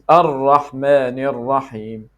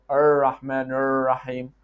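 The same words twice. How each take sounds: First: The r is a quick tongue tap. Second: The r sounds like an American er. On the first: The speaker calls it right. "It is Ar-Rahman Ar-Rahim" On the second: The speaker calls it wrong. "It is not Ar-Rahman Ar-Rahim, like the American er"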